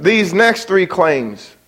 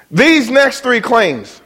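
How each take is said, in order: First: "next" punched in a slow read; stress on next. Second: "These" slow and high, dragged out; stress on these. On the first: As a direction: hit "next" and take it slowly. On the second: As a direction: lean hard on "These". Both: Shown as a demonstration.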